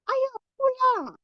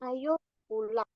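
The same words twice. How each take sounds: First: It is said expressively, with an inviting, emphatic tone. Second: It is said flatly, without intonation or emphasis. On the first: The speaker calls it right. "pasti anak juga akan greget" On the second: The speaker calls it wrong. "tanpa intonasi, tanpa adanya penekanan"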